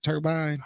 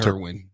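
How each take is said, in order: First: The second syllable starts with a b sound. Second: The second syllable starts with a w sound. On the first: The speaker calls it right. "Is it turbine?" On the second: The speaker calls it wrong. "I keep I say it wrong. I say"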